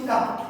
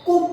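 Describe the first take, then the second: First: The vowel sounds like a short 'uh'. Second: The vowel sounds like a short 'oo'. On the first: The speaker calls it right. "কিন্তু আমরা বলছি কাপ" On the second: The speaker calls it wrong. "কুপ হওয়া উচিত ছিল, যেহেতু ইউ এর উচ্চারণ mainly হচ্ছে উ"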